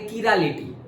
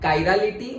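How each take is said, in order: First: The word begins with a ki sound. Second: The word begins with a kai sound. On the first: "एक होता है किरालिटी" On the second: "एक होता है कायरालिटी"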